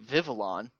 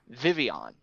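First: The name is pronounced the American way. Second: The name is pronounced the French way. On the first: The speaker calls it wrong. "He was constantly pronouncing it the American way" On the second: The speaker calls it right. "some French pronunciation that we have to incorporate into it as well, which is actually Vivian"

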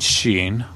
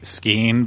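First: The word begins with an sh sound. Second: The word begins with an sk sound. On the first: The speaker is putting on a smug, knowing persona. "when I'm trying to be, you know, [name] being a dumb, smug person" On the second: This is the ordinary everyday way to say it. "In normal conversation, I just say skiing"

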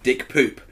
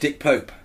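First: The surname has an 'oo' vowel, like 'hoop'. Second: The surname has an 'oh' vowel, like 'hope'. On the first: The speaker calls it wrong. "mispronouncing the cinematographer of Mr. Turner as Dick Poop" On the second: The speaker calls it right. "No, it's Dick Pope"

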